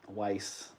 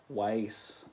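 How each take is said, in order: Both takes have the same delivery.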